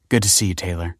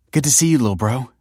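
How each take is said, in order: First: Smiling. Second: Higher, louder and quick hello; bright greeting. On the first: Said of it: "smiled Kelsey". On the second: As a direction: greet him brightly and fast. Greeting the sulky brother. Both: Acted.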